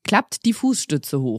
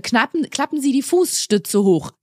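First: Put-on lower, slow du address to kids; casual announcement. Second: Slow, formal Sie address; formal announcement. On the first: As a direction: switch to talking to the children. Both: Shown as a demonstration. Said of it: "erst siezen und dann duzen".

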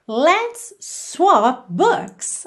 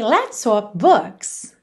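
First: Very slow, drawn-out teaching model, higher; slow model phrase. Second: Slow, even repeat with falling end. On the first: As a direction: spell it out slowly for learners, rising at the end. (frase modelo bem devagar, mais aguda) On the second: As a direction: say it again slowly for learners to copy. (repetição lenta, entonação descendente) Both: Shown as a demonstration. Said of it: "como é que você diria?".

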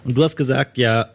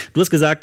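First: Voice giving out. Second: Said in the usual way. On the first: Real, not acted. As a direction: voice cracking and failing mid-sentence. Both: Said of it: "meine Stimme versagt".

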